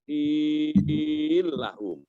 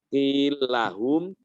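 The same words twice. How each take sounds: First: The vowel in qil is held very long. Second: The vowel in qil is held short. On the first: "atau enam harokat" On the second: "boleh dua harokat"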